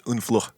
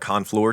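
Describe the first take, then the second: First: It is said with a French pronunciation. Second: It is read out as an American would. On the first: The speaker calls it right. "but it's Unfleur" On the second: The speaker calls it wrong. "it looks like Honfleur to me. Obviously, it'd be an American"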